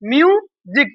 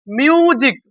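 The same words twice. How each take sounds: First: म्यूजिक repeated with the z sound; म्यूजिक, the s spoken as z. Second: म्यूजिक with a z sound, not s; म्यूजिक said as miu-zik. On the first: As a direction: stress the z in म्यूजिक for the class. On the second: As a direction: say म्यूजिक with a buzzing z in the middle. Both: Shown as a demonstration. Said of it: "इसको क्या बोले हम लोग, जी बोले".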